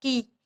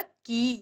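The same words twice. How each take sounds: First: Quick, short vowel in "की"; "की" as a brief ki, not drawn out; short i sound. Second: Unhurried long vowel in "की"; "की" drawn out as kee; long ee sound. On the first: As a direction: say "की" with the i cut short, all at once. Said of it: "एकदम से बोल जाते हैं". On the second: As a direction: say "की" with the ee held at ease. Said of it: "तो आराम से बोला जाता है". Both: Shown as a demonstration.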